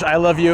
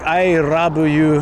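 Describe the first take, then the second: First: Love is said with a plain English L sound. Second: Love is said as 'rabu' in Japanese syllables. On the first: "for English" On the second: "like the katakana under it"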